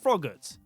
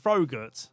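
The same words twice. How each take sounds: First: The word is pronounced with an English accent. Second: The word is pronounced with a non-English accent. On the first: The speaker calls it right. "I'm going to call him" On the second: The speaker calls it wrong. "I'm not going to call him"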